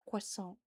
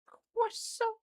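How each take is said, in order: First: Said in the usual way. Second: CROISSANT squealed extremely high in mock French; a silly, piercingly high French "Croissant". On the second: Shown as a demonstration. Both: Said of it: "the silly way of just saying".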